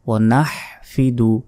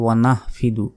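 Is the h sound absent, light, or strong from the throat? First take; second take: strong; light. First: The h sound is strong from the throat. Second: The h sound is light and breathy. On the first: The speaker calls it right. "হার উচ্চারণ হবে বড় হা" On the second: The speaker calls it wrong. "অনেকে বলি ওয়া নাহফিদু"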